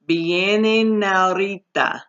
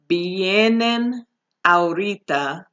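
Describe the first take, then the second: First: The final N runs straight into the next A. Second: The final N and next A are kept apart. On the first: The speaker calls it right. "We want the N and the A to be connected" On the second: The speaker calls it wrong. "instead of saying"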